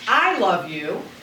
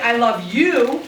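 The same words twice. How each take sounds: First: The stress falls on the word I. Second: The stress falls on the word you. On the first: It is me, not someone else, who loves you. "that means I love you as opposed to somebody else loving you" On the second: It is you I love, not someone else. "it means I love you as opposed to loving somebody else"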